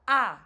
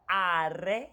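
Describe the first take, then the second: First: The final r sound is dropped, ending on ah. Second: The final r sound is clearly pronounced. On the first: The speaker calls it right. "swallow the sound and say ah" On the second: The speaker calls it wrong. "A student in my class once said"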